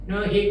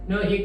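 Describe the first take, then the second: Both takes have the same delivery.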